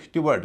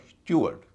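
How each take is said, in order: First: स्टीवर्ड said with a full "ward" ending; wrong-example स्टीवर्ड, "styu-waard"; common mispronunciation. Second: स्टीवर्ड said as "styoo-erd"; no w, weak second syllable in स्टीवर्ड; correct pronunciation. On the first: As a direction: voice the w and long a in स्टीवर्ड. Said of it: "इसे कई लोग स्टीवर्ड कहते हैं". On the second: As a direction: model स्टीवर्ड as "styu-ard". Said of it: "इसका उच्चारण होगा स्टीवर्ड". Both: Shown as a demonstration.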